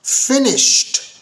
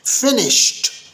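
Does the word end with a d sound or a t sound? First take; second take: t sound; t sound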